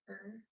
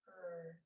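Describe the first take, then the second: First: The R sound is harsh, made back in the throat. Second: The R sound is smooth, with no throat friction. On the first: "with the back of your tongue kicking off against the back of your throat" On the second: "or just er"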